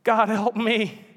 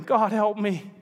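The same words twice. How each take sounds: First: Slow, high, broken plea; whimpering prayer. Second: Whimpering. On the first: Ghost giving in as the lizard dies, slow whimpering plea. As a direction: let it fall to a whimper. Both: Acted. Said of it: "ended whimpering".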